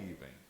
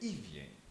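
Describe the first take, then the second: First: The name is said as Iven. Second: The name is said as Ivien. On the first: The speaker calls it wrong. "então não é Iven" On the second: The speaker calls it right. "é Ivien"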